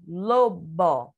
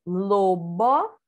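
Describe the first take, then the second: First: LOBO as LO-BO with a falling end; finished lobo, full final O, falling; joined-up word. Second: LOBO drawn out as LO-BO, rising; syllable-by-syllable reading. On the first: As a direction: close lobo with a falling tune. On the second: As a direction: sound out lobo with full final O, tune left up. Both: Shown as a demonstration. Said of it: "Vamos continuar vendo aqui".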